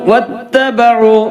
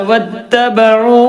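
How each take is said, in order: First: The final vowel is drawn out long. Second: The final vowel is drawn out long.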